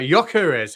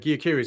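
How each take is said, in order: First: The first syllable sounds like 'yok', rhyming with mock. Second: The first syllable does not sound like 'yok'. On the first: The speaker calls it right. "It's pronounced Yok, like mock" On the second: The speaker calls it wrong. "Correct me already on my pronunciation of"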